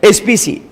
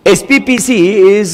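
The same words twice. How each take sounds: First: एसपीसी said as the wrong short name S-P-C; teacher shows the mistaken version एसपीसी. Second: एसपीपीसी spelled out fully as S-P-P-C, the double P clear; right name. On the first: Teacher correcting students on the shop's name, says the wrong एसपीसी. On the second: Teacher correcting students on the shop's name, says the right एसपीपीसी. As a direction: stress the extra P in एसपीपीसी. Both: Shown as a demonstration. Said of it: "एसपीसी नहीं".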